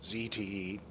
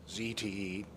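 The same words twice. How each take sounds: First: The letters are said in an American way. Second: The same.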